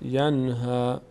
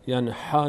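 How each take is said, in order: First: The h sound is light and breathy. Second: The h sound is harsh and throaty. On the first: The speaker calls it right. "هی دو چشم است" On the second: The speaker calls it wrong. "هی جیمی نیست"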